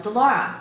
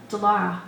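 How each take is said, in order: First: Loud, higher call across the yard; calling out a name loudly across the distance; yelled name. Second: Breathless urgent call; out of breath. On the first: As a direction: shout her name to reach her far off. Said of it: "Someone yelled". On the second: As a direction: gasp the name out of breath. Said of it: "Satan was out of breath". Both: A narrator's reading.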